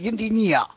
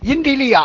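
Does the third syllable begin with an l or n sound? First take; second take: n; l. First: The third syllable begins with an n sound. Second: The third syllable begins with an l sound. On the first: The speaker calls it wrong. "我就学成阴地逆呀" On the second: The speaker calls it right. "我说对了，阴地利啊"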